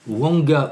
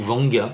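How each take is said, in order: First: The name begins with a W sound. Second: The name begins with a V sound. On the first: This is how others say the name. "alors Wanga ou Vanga" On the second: This is how only the speaker says the name. "moi je suis le seul à prononcer Vanga"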